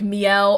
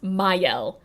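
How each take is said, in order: First: The name starts with a 'mee' sound. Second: The name starts with a 'my' sound. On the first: The speaker calls it wrong. "So I've been pronouncing this it wrong this whole time" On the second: The speaker calls it right. "actually I think it's supposed to be pronounced Mayel"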